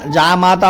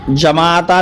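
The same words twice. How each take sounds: First: "जामाता" said with long ja, jaamata; the correct "जामाता", long first vowel; correct form. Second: "जमाता" said with short ja, jamata; the incorrect "जमाता", short first vowel; wrong form. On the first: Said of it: "जामाता होता है". (सही रूप "जामाता") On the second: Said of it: "जमाता नहीं". (गलत रूप "जमाता") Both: Shown as a demonstration.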